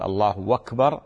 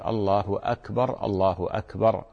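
First: أكبر run on as "wakber", no hamza; the common mistake, الله أكبر without the hamza; wrong pronunciation. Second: أكبر with a clean hamza, slow like a muezzin; muezzin's correct الله أكبر; correct call. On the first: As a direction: slur الله into أكبر, "Allahwakber". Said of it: "لا، هذا خطأ". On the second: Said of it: "المؤذن ... يقول". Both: Shown as a demonstration.

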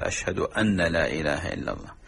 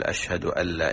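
First: "أن لا" merged as "ألّا" with a doubled l; correct assimilation. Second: "أشهد أن لا" with the nun of "أن" sounded clearly before "لا"; no nun assimilation. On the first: Teacher giving the correct merged shahada. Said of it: "يقول". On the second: Teacher showing the missed assimilation error. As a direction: keep the n in "أن لا" unmerged. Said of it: "يترك إدغام النون". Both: Shown as a demonstration.

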